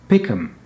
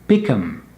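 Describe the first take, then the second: The two takes are said the same way.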